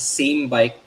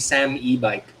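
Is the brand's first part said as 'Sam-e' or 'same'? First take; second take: same; Sam-e. First: The first part sounds like the word same. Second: The first part sounds like Sam plus e. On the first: "I read it as same bike because it has the word same" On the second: "some people are saying it's actually Sam e bike"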